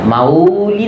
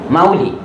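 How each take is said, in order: First: The u vowel is held long. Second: The u vowel is kept short. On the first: The speaker calls it wrong. "उ दीर्घ नाही" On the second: The speaker calls it right. "उ ऱ्हस्व काढायचा"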